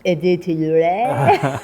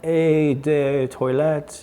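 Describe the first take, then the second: First: "Eau de Toilette" slowly, ending in a silly too-lay; mock-French echo. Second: "Eau de Toilette" slowly, as ay-day-toy-let; halting mispronunciation. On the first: Host echoing the perfume label, playfully mock-French. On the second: Real, not acted. Co-host reading the perfume brand, slowly mispronouncing. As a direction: sound out "Eau de Toilette" letter by letter, wrongly. Sounding out a French label.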